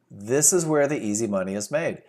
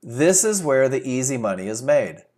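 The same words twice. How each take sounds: The two takes are said the same way.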